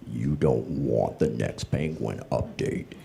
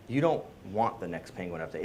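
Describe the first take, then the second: First: It is said in a deep, menacing villain voice. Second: It is said in an ordinary speaking voice.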